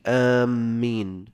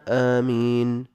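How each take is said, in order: First: The first vowel is long and the m doubled. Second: The first vowel is long and the m single. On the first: "بالمد والتشديد" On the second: "أفصحهن وأشهرهن آمين بالمد والتخفيف"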